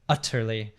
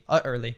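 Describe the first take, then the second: First: The middle T is clearly pronounced. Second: The middle T is a glottal stop. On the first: "R P... very correctly pronounced T's all the time. So utterly" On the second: "more Cockney, where you'd be like, utter, utterly, utterly, uh, doing a glottal T there"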